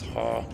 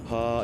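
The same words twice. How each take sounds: First: The sound is even lower, breathed inward. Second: The sound is at a normal voice pitch. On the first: "drop it even lower by using this thing called inward bass" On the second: "instead of it being ha"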